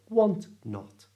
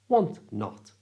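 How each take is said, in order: Both takes have the same delivery.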